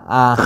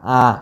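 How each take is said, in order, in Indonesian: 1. Vokalnya sengau, ada udara keluar lewat hidung. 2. Vokalnya sengau, ada udara keluar lewat hidung.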